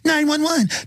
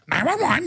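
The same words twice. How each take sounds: First: It is said in a weak, timid voice. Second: It is said in a squawking, parrot-like voice. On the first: "but not in the parrot voice. It was like" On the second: "just like parrots"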